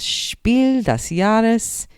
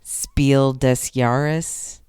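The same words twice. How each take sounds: First: The name is pronounced with German sounds. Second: The name is pronounced with English sounds. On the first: "I speak a little bit of German, so I'm saying it properly" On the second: "that's how the board gamers say it"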